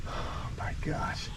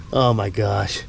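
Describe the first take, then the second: First: Breathless whispered oh my gosh; hushed gasp of delight at the pets; whispered awe. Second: Said in the usual way. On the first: Real, not acted. Owner spots his pets, whispered awe. Sees the animals, hushed aside.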